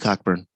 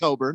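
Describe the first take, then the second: First: The first syllable is said as 'cock'. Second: The first syllable is said as 'co'. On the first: The speaker calls it wrong. "I did say Cockburn. ... it's more fun to pronounce it that way" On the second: The speaker calls it right. "it's pronounced Coburn"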